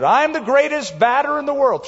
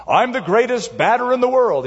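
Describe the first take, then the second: First: Much higher, mock shouted boast; kid's shout. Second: Put-on a little boy's proud, higher announcement to an empty yard; boyish announcement. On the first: Boy in the backyard shouting his boast before the second swing. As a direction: call it out like a boy hyping himself up. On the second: Little boy alone in the backyard, proudly announcing himself. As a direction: proclaim it like a kid playing ballgame. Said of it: "he announced".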